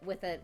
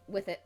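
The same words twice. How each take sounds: The two takes are said the same way.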